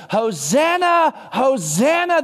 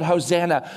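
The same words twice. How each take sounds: First: Calling out Hosanna. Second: Said in the usual way. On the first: Retold or imitated. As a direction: cry out Hosanna slowly like a crowd. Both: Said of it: "they use this word".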